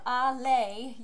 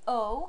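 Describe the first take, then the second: First: Two separate syllables are pronounced. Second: One merged vowel sound is pronounced. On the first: The speaker calls it wrong. "Instead of allez" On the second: The speaker calls it right. "you will say O"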